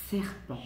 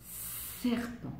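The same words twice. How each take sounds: First: Said in the usual way. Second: Serpent breathed voiceless, the S hissed; hissing S. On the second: Shown as a demonstration. Teacher to pupils, hissing serpent like a snake. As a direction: hiss the S of serpent softly. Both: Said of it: "le son que l'on entend au début".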